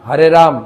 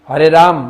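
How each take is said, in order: The two takes are said the same way.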